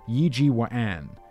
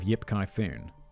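First: The name is said the Mandarin way. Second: The name is said in the familiar romanized form. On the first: "In Mandarin, it'll be pronounced as Yi Ji Wan" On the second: "Instead of Yip Kai Foon. That is totally different"

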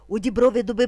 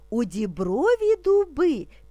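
First: It is spoken very quickly. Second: It is spoken slowly and calmly. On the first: "І дуже швидко" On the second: "Спочатку ми будемо вимовляти спокійно, не спіша"

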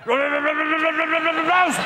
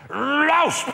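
First: It is said with a stammer. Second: It is said with a lisp.

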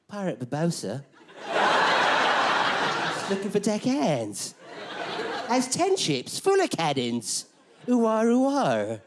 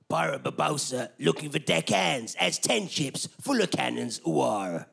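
First: It is said in a camp, exaggerated voice. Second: It is said in a plain pirate voice.

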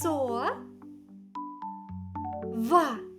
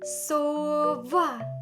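First: The syllables are separated by a pause. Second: The syllables are joined without a pause.

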